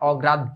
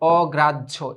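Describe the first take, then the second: First: The last syllable is not pronounced like 'jho'. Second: The last syllable is pronounced like 'jho'. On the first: The speaker calls it wrong. "না" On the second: The speaker calls it right. "তারপরে হচ্ছে ঝো"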